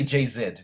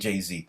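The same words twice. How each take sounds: First: Z is said the British way, as zed. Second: Z is said the American way, as zee.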